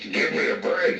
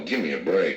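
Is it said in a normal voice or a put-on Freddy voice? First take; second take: Freddy voice; normal. First: It is said in a Freddy Krueger voice. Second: It is said in his normal voice.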